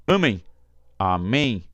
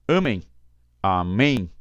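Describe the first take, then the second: The two takes are said the same way.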